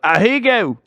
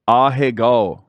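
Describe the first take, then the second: First: The word has an Americanized pronunciation. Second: The word has a Japanese-like pronunciation. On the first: The speaker calls it wrong. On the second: The speaker calls it right.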